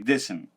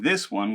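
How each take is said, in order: First: The word 'one' is reduced to 'n'. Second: The word 'one' is said in full. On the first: "we'll say this'n" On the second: "instead of saying this one"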